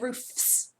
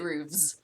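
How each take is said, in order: First: The word ends with an F sound. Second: The word ends with a V sound. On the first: "I think roofs, the Fs" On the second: "but you pronounce it roofs"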